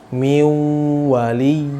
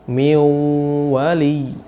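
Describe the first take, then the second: The two takes are said the same way.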